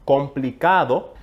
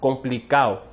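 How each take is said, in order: First: The d between the vowels is pronounced. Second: The d between the vowels is dropped.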